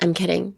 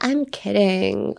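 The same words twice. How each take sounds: First: It is said in a flat, serious tone. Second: It is said in a light, playful tone. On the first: The speaker calls it wrong. "don't be like" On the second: The speaker calls it right. "冗談だよのテンションですね"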